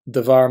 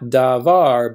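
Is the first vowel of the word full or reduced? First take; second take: reduced; full. First: The first vowel is barely heard, nearly dropped. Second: The first vowel is a full vowel. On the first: The word is tied to the next word. "there's hardly any vowel up here" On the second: The word stands alone. "we're going to say not davar"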